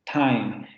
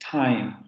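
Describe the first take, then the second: Both takes have the same delivery.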